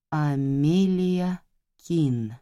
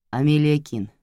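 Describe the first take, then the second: First: Slowly tasting the name; slow, savoring. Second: Said in the usual way. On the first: A narrator's reading. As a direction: draw out «Амелия Кин» very slowly. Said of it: "медленно произнесла я, пробуя имя на вкус". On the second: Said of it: "медленно произнесла я".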